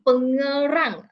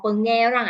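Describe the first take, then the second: First: Pengerang sounded out slowly, syllable by syllable; tentative pronunciation. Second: Pengerang said quicker, as a second guess; alternative pronunciation. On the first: Presenter unsure of a place name, Pengerang drawn out tentatively. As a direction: draw out Pengerang as a first attempt. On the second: Presenter unsure of a place name, Pengerang offered as an alternative pronunciation. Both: Shown as a demonstration. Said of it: "I don't know how to pronounce this place".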